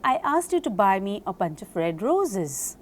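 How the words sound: The word roses is stressed. "When I stress upon roses"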